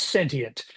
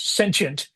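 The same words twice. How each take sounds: First: The word has a British or Australian pronunciation. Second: The word has an American pronunciation. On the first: "if you're Australian or British" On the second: "if you're an American"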